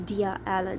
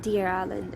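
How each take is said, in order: First: The words are said without a linking R sound. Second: An R sound links the two words together. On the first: The speaker calls it wrong. "It's not going to be" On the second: The speaker calls it right. "it's going to be ... They're going to pronounce the R"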